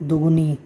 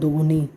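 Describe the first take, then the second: No difference in how they are said.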